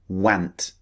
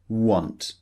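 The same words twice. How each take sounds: First: The vowel differs from the vowel in 'not'. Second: The vowel matches the vowel in 'not'. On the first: The speaker calls it wrong. "some people might be tempted to use the, the pronunciation want, which is wrong" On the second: The speaker calls it right. "we know it's an O sound"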